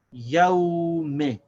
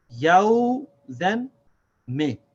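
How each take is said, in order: First: Yaw me as one word, long first syllable; two syllables joined. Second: Yaw, then me, each set apart; two separate syllables. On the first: Teacher models the word, Yaw me run together slowly. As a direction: stretch Yaw and follow straight with short me. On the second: Teacher counts two syllables, yaw and me said apart. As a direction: punch a long yaw, pause, give a short me. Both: Shown as a demonstration. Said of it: "this is two syllables".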